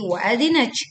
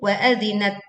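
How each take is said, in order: First: The final t is released with excessive breath. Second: The final t is released with light breath. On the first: The speaker calls it wrong. "tidak berlebihan menjadi wa adzinat" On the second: The speaker calls it right. "Yang betul"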